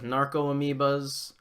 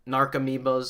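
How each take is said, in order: First: It is said as two separate words. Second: It is said as one blended word. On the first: The speaker calls it wrong. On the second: The speaker calls it right.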